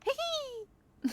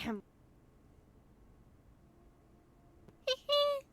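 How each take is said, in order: First: It is said fast. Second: It is said slowly.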